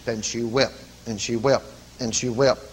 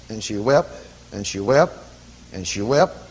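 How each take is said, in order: Both takes have the same delivery.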